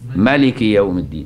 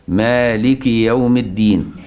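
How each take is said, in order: First: The first vowel of the first word is short. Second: The first vowel of the first word is long. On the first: This reading is used in the second prayer unit. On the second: This reading is used in the first prayer unit.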